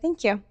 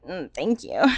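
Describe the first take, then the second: First: It sounds easy and accepting. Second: It sounds reluctant and pained.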